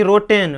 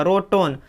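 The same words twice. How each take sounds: First: रोटेन as "roh-ten", clear "e"; spelling reading रोटेन, "e" before n; mispronunciation demo. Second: रोटन as "roh-ton", no "e" sound; teacher's model रोटन, short last vowel; correct pronunciation. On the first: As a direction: say रोटेन wrongly with "-ten" at the end. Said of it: "रोटेन नहीं होगा". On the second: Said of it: "ना कि रोटेन". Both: Shown as a demonstration.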